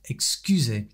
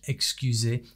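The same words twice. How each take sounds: First: One syllable gets a strong English-like stress. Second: The syllables are evenly weighted. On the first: The speaker calls it wrong. "because that comes from the English" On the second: The speaker calls it right. "more leveled out, which it needs to be in French"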